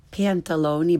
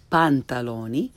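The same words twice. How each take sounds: First: "pantaloni" starting like English pan; learner's mispronunciation. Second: "pantaloni" with open ah, rising end; correct Italian pronunciation. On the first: Teacher shows beginners' mistake, "pantaloni" with English short a. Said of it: "first the way most people". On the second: Teacher corrects beginners, "pantaloni" with Italian ah. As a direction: say "pantaloni" as pahn-tah-LO-nee. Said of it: "follow it with the correct pronunciation". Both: Shown as a demonstration.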